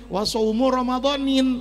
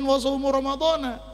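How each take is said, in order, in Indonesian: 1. Kata terakhir berakhir dengan bunyi n tambahan. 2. Kata terakhir berakhir dengan bunyi a biasa. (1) "dibacanya nakiroh menerima tanwin"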